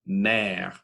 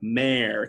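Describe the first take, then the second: First: The vowel is a pure, open French e. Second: The vowel sounds like the English word mare. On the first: The speaker calls it right. "the pure French pronunciation" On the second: The speaker calls it wrong. "mare kind of sound"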